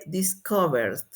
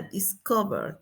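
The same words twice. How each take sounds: First: DISCOVERED with D right after R. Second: DISCOVER softly, with the R heard; sounded final R. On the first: Teacher modelling the past, -ed as D. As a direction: close DISCOVERED without an extra syllable. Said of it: "Con D". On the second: Teacher showing that R sounds, sounded final R. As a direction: finish DISCOVER on its R. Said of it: "El sonido final es en la R". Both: Shown as a demonstration.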